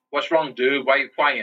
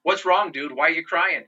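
First: Lightly imitated slurred patient; slurred speech. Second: Higher-pitched retold repeat of the question. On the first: Patient asks the crying man what's wrong, in slurred speech. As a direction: slur the words a little, softening the consonants. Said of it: "the guy in his slurred speech". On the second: Patient repeats himself after "What?", in a higher, clearer voice. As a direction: repeat it higher, with the words more clearly formed. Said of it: "and he's like".

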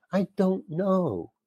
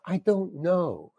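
First: Slow and quiet, higher, fed up; deadpan repeat. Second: Slow, quiet flat shrug; deadpan. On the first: Actor repeating his answer to the director, slow and fed up. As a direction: say it again, tired shrug. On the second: Actor to the director, slow and quiet deflated. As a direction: drag it out, helpless and fed up. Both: Retold or imitated. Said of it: "And I just said it like that".

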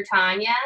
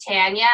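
First: Tanya with an open "ah"; first vowel of Tanya as in "father"; TAHN-ya pronunciation. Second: Tanya with the "a" of "tan"; first vowel of Tanya as in "cat"; TAN-ya pronunciation. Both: Shown as a demonstration. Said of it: "everyone called her Tanya".

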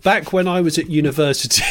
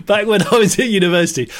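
First: Said in the usual way. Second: Laughing reread. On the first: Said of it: "I'm reading this". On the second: Shown as a demonstration.

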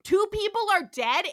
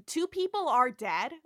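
First: Higher, louder emphatic protest; Chapel. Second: Lightly voiced pointed objection; Chapel. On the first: Retold or imitated. Nurse repeats her objection to Andrea, exasperated raised voice. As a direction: raise the voice and hammer each word. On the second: Nurse answers Andrea about the captain, restrained objection. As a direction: state it pointedly without raising pitch. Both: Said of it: "Chapel's like".

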